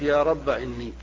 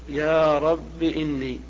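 First: The word rabb ends in a short a. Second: The word rabb ends in a short i. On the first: "حذف الألف" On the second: "الأكثر والأحسن الحذف مع الكسر"

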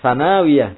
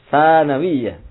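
First: The vowel in the syllable na is long. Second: The vowel in the syllable sa is long. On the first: The speaker calls it wrong. "Yang dibaca itu nun-nya yang panjang" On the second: The speaker calls it right.

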